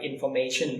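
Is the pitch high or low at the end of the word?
high. It has a Thai accent, pitch high at the end.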